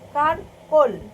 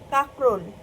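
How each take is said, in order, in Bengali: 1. r ধ্বনিটি k ধ্বনির আগে আসে। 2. k ধ্বনিটি r ধ্বনির আগে আসে।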